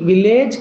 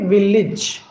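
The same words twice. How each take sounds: First: The final syllable sounds like 'ayj'. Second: The final syllable sounds like 'ij'. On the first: The speaker calls it wrong. "విలేజ్ కాదండి" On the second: The speaker calls it right. "ఇజ్ అని చెప్పాలి"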